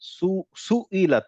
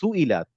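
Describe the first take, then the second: First: The first consonant is held long and doubled. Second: The first consonant is short and run together quickly. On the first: The speaker calls it wrong. "আপনি যদি সু বলেন মনে হবে যেন ওখানে সাদ্দা আছে।" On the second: The speaker calls it right. "সুইলাত একসাথে করে তাড়াতাড়ি বললে"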